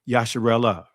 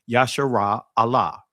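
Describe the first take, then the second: First: The parts are run together into one word. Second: The last part is kept apart from the rest. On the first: The speaker calls it wrong. "many will contract this and, and say Yasharallah" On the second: The speaker calls it right. "I'll say it again"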